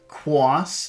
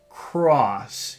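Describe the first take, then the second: First: The r sounds childlike, with lips pulled down. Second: The r sounds adult, with lips pushed out. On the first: The speaker calls it wrong. "that's how a little child would say it" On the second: The speaker calls it right. "you push out instead of down"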